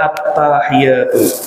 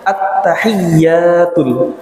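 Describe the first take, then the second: First: The vowel in the second syllable is drawn out long. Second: The vowel in the second syllable is kept short. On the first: The speaker calls it wrong. "sampai kita tua bacanya at-tahiyatul" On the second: The speaker calls it right. "pendek taknya, nggak dibaca panjang"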